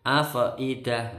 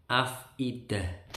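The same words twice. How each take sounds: First: "afidah" with a bouncing fa, afaidah; wrong pronunciation. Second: "afidah" with a smooth, unbounced fa; correct pronunciation. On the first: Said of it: "nggak boleh". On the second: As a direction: say "afidah" simply, no bounce. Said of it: "cukup afidah". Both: Shown as a demonstration.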